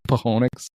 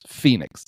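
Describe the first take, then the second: First: The word is said with three syllables. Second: The word is said with two syllables. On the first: The speaker calls it wrong. "I need to rent a car to go to go to Pahonix" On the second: The speaker calls it right. "it's Phoenix"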